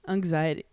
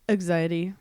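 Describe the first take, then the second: No difference in how they are said.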